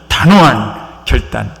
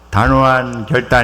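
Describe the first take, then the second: First: It is said forcefully, with crisp accent. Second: It is said flatly, without punch.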